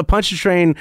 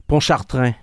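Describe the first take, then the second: First: Pontchartrain as "PON-cha-train"; Anglicized Pontchartrain with a hard ch, "PUNCH-a-train"; American pronunciation. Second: Pontchartrain as "pon-shar-TRAN", nasal French vowels; French pronunciation. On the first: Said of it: "something charming about the American". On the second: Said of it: "Say that right". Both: Shown as a demonstration.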